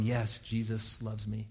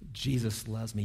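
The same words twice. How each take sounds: First: Put-on soft children's hymn, sung slowly; sung softly. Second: Sung softly. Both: Shown as a demonstration. Pastor to congregation, sings the childhood hymn softly. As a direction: sing it gently like a child's song. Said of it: "Goes like this".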